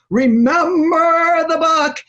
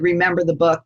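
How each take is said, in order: First: Booming high-flown slow divine proclamation; hammed-up voice of God, very slow; Charlton Heston God voice. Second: Said in the usual way. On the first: Shown as a demonstration. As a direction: epic movie-God delivery, loud and drawn out. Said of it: "like the voice of Charlton Heston". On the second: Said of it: "people think it's like the voice of Charlton Heston".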